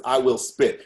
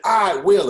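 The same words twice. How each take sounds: First: Said in the usual way. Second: Loud, raised-pitch poetic finish; performed declaration. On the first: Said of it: "and it says". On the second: Retold or imitated. Poets ending their piece for the guest, loud declaration. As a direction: proclaim it from the stage. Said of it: "And we said".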